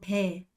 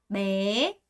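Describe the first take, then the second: First: The vowel is short with a flat pitch. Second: The vowel is long with a rising pitch. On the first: The speaker calls it wrong. "안 되죠?" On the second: The speaker calls it right. "좀 길게 매, 매 거기다가 성조 올려서"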